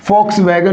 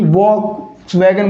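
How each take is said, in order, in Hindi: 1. शब्द की शुरुआत f की आवाज़ से होती है। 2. शब्द की शुरुआत v की आवाज़ से होती है। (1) "इसका करेक्ट प्रोनाउंसिएशन क्या होगा" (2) "वैसे तो इसका उच्चारण वह होना चाहिए, यानी कि वॉक्स वैगन बोलना चाहिए"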